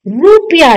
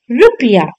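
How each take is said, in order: First: रुपया with a long oo after r; wrong long u. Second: रुपया with a short u after r; correct short u. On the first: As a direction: say रुपया as "roopiya". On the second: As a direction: say रुपया as "rupiya". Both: Shown as a demonstration. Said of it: "रुपया नहीं".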